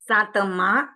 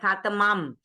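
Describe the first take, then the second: First: The word ends with a nasalized vowel. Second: The word ends with a closed m sound. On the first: The speaker calls it right. "न जो nasal sound जाए वैसा रखना है" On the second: The speaker calls it wrong. "एंड में जो अनुस्वार होता है उसको हाफ म की तरह उच्चारण करते हैं"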